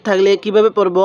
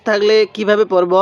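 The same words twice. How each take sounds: The two takes are said the same way.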